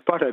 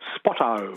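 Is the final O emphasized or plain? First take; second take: plain; emphasized. First: The final O is said plainly. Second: The final O is strongly emphasized, Western Australian style.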